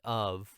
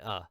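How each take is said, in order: First: The word is said fully with a clear V. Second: The word is reduced to a short uh sound. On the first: The speaker calls it wrong. "you're not going to say of" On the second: The speaker calls it right. "you're going to say uh"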